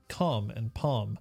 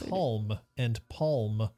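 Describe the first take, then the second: First: The l is silent in both words. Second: The l is pronounced in both words. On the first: It is the usual spoken pronunciation. The speaker calls it right. "as opposed to" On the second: It is a pronunciation learned from reading. The speaker calls it wrong. "I said things like"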